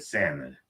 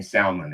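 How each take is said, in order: First: Salmon said as SAM-mon; silent L. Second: Salmon with a sounded L; L pronounced. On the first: What he said in Alaska, salmon with silent L. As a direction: say salmon without the L. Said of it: "they all say salmon". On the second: Back in Seattle to old habit, salmon with L. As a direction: say salmon as SAL-mon. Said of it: "I started saying salmon again". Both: Shown as a demonstration.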